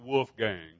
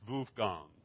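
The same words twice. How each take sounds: First: The name has an English-style pronunciation. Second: The name has a German-style pronunciation. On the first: The speaker calls it wrong. "it's not Wolfgang" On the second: The speaker calls it right. "a German girl that I knew said, it's Wolfgang"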